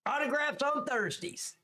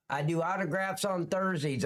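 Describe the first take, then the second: First: Put-on high squeal of a voice; mock high-pitched announcement. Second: Said in the usual way. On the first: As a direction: repeat it way up high, playfully.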